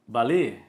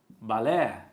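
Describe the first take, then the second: First: The stressed final vowel is closed. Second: The stressed final vowel is open. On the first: "Quando eu colocar o circunflexo, eu vou ler balé" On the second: "Quando eu colocar o agudo, eu vou ler balé"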